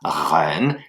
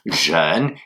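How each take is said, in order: First: The first sound is like a French r. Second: The first sound is like a French j. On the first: "il ne s'agit pas de dire reine" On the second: "il ne s'agit pas de dire jeune"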